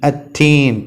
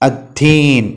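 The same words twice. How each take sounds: Both takes have the same delivery.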